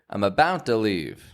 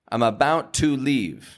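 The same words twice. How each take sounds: First: The vowel in 'to' is a reduced schwa. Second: The vowel in 'to' is a full vowel. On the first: The speaker calls it right. "but rather" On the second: The speaker calls it wrong. "We don't want to say"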